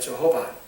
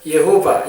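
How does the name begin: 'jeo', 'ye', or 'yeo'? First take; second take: jeo; ye. First: The name begins with 'jeo' and ends 'ba'. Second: The name begins with 'ye' and ends 'ba'. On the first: This is how English-speaking missionaries said the name. "영어 선교사들이 영어로 말할 때 하나님의 이름이 저호바예요" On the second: This is how Chinese people said the name. "중국 사람들이 어떻게 불렀냐면요"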